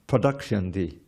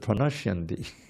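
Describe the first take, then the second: First: The consonant after 'pra' is a d sound. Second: The consonant after 'pra' is an n sound. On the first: The speaker calls it wrong. "they learn the songs a little wrong" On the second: The speaker calls it right. "but instead of pranashyanti"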